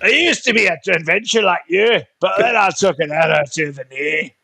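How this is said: It is said with a Scottish accent.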